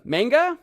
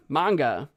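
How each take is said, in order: First: "Manga?" with a flat a, as in "man", rising like a question, higher and louder; trying a pronunciation. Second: "Manga." with a broad ah, "MAHN-ga", settled and falling; other pronunciation. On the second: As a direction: answer yourself with "Manga." as "MAHN-ga". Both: Shown as a demonstration. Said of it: "How do you guys say manga?".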